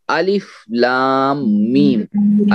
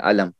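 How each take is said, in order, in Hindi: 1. हर हरफ़ अलग-अलग, एक-एक करके बोला जाता है। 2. हरूफ़ एक छोटे शब्द में जुड़े होते हैं। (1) "अलग अलग करके पढ़ेंगे" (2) "अलम नहीं पढ़ेंगे"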